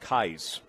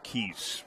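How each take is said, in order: First: The name rhymes with the word eyes. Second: The name is said like the word keys. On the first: The speaker calls it right. "So like eyes with a K" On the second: The speaker calls it wrong. "not Keys"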